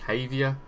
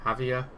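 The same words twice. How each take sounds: First: The name begins with an H sound. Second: The same.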